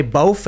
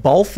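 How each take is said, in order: First: "bof", the TH turned into F; "both" with F ending. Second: Said in the usual way. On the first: Shown as a demonstration. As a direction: say "bof" with a final F sound. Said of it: "instead of "both". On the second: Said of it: "you say "bof" instead of".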